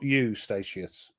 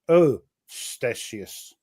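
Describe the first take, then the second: First: The name is said the anglicized way. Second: The name is said the Dutch way. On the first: The speaker calls it wrong. "not Eustatius" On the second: The speaker calls it right. "pronounced Ostasius"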